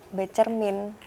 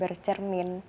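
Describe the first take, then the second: First: The prefix is said 'be' with no r sound. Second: The prefix is said 'ber' with an r sound. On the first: The speaker calls it right. "yang benar itu bercermin" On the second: The speaker calls it wrong. "bukan bercermin"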